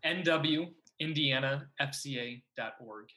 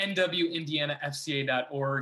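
First: It is said slowly. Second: It is said at normal speed.

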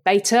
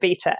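First: The word is said with an American pronunciation. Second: The word is said with a British pronunciation. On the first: "as you say it in the US" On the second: "because I'm thoroughly British. So I say it beta"

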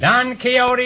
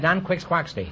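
First: Quixote is said the usual, standard way. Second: Quixote is said as 'Quix Quaxty'. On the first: "is right" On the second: "Until I was 40 years old, I pronounced that"

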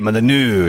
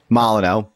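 First: The name is said in a French accent. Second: The name is said in a plain English accent.

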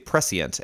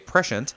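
First: It uses the Canadian, Commonwealth-style pronunciation. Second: It uses the speaker's own regional pronunciation. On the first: "They say prescient" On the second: "I say, prescient"

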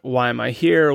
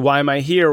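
First: It sounds grudging and self-centered. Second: It sounds eager and ready to help.

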